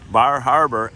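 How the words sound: It is said in a non-New England accent.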